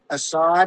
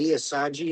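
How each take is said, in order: First: The name ends with a plain d sound. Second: The name ends with a 'djee' sound.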